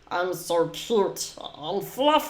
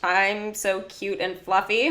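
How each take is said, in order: First: It is said in an imitation of Stitch's voice. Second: It is said in the speaker's normal voice.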